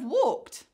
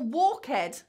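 First: The ending is just a consonant. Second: The ending is an extra syllable. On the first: The speaker calls it right. "instead of walked" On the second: The speaker calls it wrong. "or walk ed"

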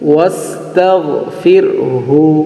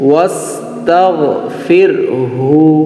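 The two takes are said the same way.

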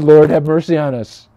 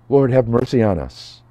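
First: It is said more loudly. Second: It is said at normal volume.

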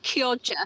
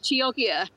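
First: The word is pronounced in the Italian way. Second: The word is pronounced in the common anglicized way. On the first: "I was taught how to pronounce it by an Italian lady. She said Kioja" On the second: "I think it's often pronounced Chioggia"

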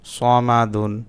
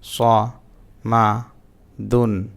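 First: The syllables are read together in one flow. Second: Each syllable is said separately with breaks. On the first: "reading পড়তে পারেন" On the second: "ভাঙা ভাঙা উচ্চারণ"

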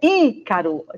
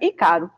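First: The first syllable is said strongly. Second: The first syllable is said weakly. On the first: The speaker calls it right. "é Ícaro. Tem um som mais forte" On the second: The speaker calls it wrong. "se não falar assim com esse som bem forte, fica Ícaro"

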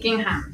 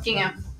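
First: The last syllable sounds like 'ham'. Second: The last syllable does not sound like 'ham'. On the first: The speaker calls it right. "I want to be like ham. Like gingham" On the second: The speaker calls it wrong. "it's my British accent ... not gingham"

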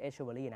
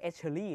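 First: The name is said with the 'ver' syllable. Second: The name is said without the 'ver' syllable. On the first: The speaker calls it wrong. "ไม่ใช่เอชชิเบอรี่" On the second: The speaker calls it right. "เขาออกเสียงตัวเองว่าเอชเชอรี่เลย"

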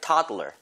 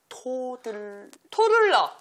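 First: The first vowel is a stressed 'ah' sound. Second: The first vowel is an 'oh' sound. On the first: The speaker calls it right. "타로다가 강세를 좀 주면서 해볼게요" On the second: The speaker calls it wrong. "토가 아니라"

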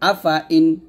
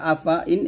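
First: The vowel after f is drawn out long. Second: The vowel after f is short and quick. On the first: The speaker calls it wrong. "এরকম আফা ইন বলা যাবে না" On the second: The speaker calls it right. "এরকম পড়তে হবে"

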